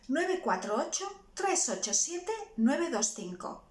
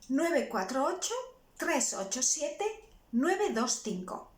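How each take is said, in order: First: The number is read faster. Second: The number is read slowly.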